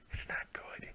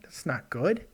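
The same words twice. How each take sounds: First: Hushed breathy aside; whispering. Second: Said in the usual way. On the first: Real, not acted. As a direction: whisper it to yourself. Repeats line, second time whispered.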